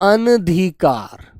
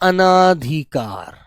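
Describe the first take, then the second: First: A short vowel follows the first syllable. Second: A long aa vowel follows the first syllable. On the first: The speaker calls it right. "आ नहीं आना चाहिए" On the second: The speaker calls it wrong. "बच्चा इसमें आ की आवाज ले आता है"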